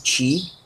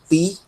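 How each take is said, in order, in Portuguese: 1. A consoante soa como ch. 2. A consoante é um som de t simples. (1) "e não ti" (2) "vai ser pronunciado ti"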